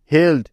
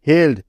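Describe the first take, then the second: No difference in how they are said.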